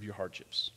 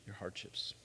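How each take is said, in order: First: Said in the usual way. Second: Whispered aside. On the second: Shown as a demonstration. Preacher whispers the point to the congregation. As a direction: drop to a breathy whisper on your hardships. Repeated line, hushed second take.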